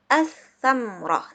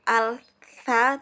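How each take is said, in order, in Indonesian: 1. Huruf l melebur ke konsonan ganda setelahnya. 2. Huruf l dibaca sebelum konsonan berikutnya. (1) "tapi dibaca as-samroh" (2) "Jadi bukan al-sa"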